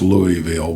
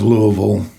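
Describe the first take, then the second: First: A fuller formal pronunciation of the city name. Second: A clipped local pronunciation of the city name. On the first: This is how it is officially meant to be said. "I think it's actually meant to be pronounced Louisville" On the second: This is how people from the area say it. "we're going to go with the slang"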